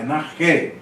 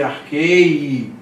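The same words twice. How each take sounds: First: Narqué with a plain é ending and no i sound; narqué, the iota left silent; right pronunciation. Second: Arquei said with a separate ei ending, as if the iota were heard; the wrong way, arquei, ending in ei; wrong pronunciation. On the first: Teacher giving students the correct reading narqué, right pronunciation. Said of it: "Aqui como se fosse arquei". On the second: Teacher showing students the mistaken reading arquei, wrong pronunciation. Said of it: "mas não é". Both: Shown as a demonstration.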